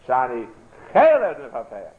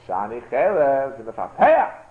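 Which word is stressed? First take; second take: Chelet; Mefapeah. First: The stress is on Chelet. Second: The stress is on Mefapeah.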